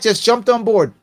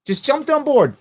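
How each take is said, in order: First: Said in the usual way. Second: "Just jumped on board" repeated higher, stress on "on"; emphatic repeat. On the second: Shown as a demonstration. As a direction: hit "on" hard in the repeat.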